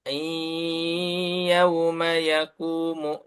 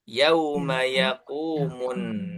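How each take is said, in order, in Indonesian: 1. Bunyi y ditahan lama dengan dengung sengau. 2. Bunyi y langsung diucapkan tanpa ditahan. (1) "Enggak boleh dibaca" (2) "Tapi langsung saja ya"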